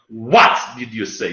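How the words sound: The stress falls on the word you. "Not like what did you say? You stress it"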